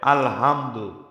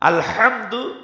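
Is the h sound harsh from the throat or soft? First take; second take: soft; harsh. First: The h is soft, like a plain breath. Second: The h is harsh, pushed from mid-throat. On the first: It means worn-out torn cloth. The speaker calls it wrong. "হালকাভাবে উচ্চারণ করে" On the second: It means all praise. The speaker calls it right. "এখানে শক্ত হা, বড় হা"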